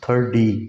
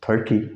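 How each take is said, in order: First: The middle consonant sounds like a soft d. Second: The middle consonant is a clear t sound. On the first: This is how Americans say it. "American इसको क्या पढ़ते हैं" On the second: This is the usual non-American reading. "जैसे हम इसको क्या पढ़ते हैं"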